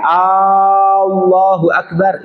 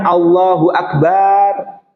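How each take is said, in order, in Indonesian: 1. Vokal pembuka pada Allah dipanjangkan. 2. Vokal setelah b pada akbar dipanjangkan. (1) "Hamzahnya Allah jangan dimatkan" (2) "Baknya tidak boleh dimatkan"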